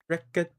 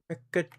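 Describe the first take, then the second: The two takes are said the same way.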